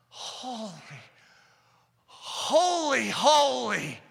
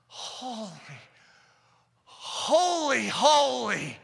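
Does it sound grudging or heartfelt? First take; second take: heartfelt; heartfelt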